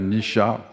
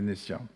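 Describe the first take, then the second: First: The middle consonant sounds like a 'sh'. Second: The middle consonant sounds like a plain 's'. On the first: The speaker calls it right. "il faut dire Nisha" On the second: The speaker calls it wrong. "que je prononce mal d'ailleurs"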